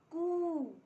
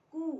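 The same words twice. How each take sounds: First: कू higher and louder, with a long oo; long u vowel. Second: कू with a short, brief oo; short u vowel. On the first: Teacher showing learners the big u sign, long vowel in कू. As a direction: stretch out the oo in कू. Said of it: "बड़ी ऊ की मात्रा". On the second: Teacher showing learners the small u sign, short vowel in कू. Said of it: "छोटी ऊ की". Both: Shown as a demonstration.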